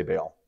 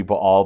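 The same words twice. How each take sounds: First: Baal in plain English style, rhyming with "pale"; "Baal" with a long A, no break; anglicized pronunciation. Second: Baal with a light catch between buh and AHL; "Baal" split Hebrew style, stress on the second half; correct original pronunciation. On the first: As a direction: say Baal as "bail", one syllable. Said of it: "but I'm gonna say Baal". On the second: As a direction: say Baal as "ba-AL", two syllables. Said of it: "it should be Baal". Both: Shown as a demonstration.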